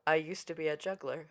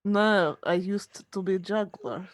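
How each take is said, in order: First: Low, soft understated delivery; offhand reply. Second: Low, mock-Russian actor voice; Russian accent. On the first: Retold or imitated. Actor explaining his trick to stunned crew, offhand. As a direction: say it quietly, as if it explains everything. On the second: Actor explaining his trick to crew, Russian accent. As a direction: put on a Russian accent, pitched down. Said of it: "more Russian sounding".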